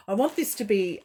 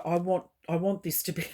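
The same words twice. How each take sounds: First: Laughing through tears; a laugh breaks the restart; tearful giggle on the words. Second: Said in the usual way. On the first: Real, not acted. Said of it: "laughs through it". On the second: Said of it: "try really hard".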